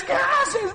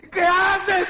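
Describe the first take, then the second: First: Even higher frantic plea; rising desperate cry. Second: High, shouted plea; desperate cry. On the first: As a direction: pitch it up further in panic. (grito más agudo y desesperado) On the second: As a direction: cry out in horror. (grito desesperado) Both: Retold or imitated.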